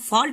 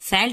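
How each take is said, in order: First: The vowel is a long open aw sound. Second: The vowel is a short a sound. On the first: The speaker calls it right. "फॉल्ट हम पढ़ते हैं" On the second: The speaker calls it wrong. "फैल्ट नहीं पढ़ेंगे"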